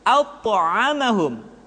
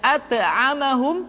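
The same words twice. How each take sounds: First: The first consonant sounds thick and heavy. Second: The first consonant sounds thin and light. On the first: The speaker calls it right. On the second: The speaker calls it wrong.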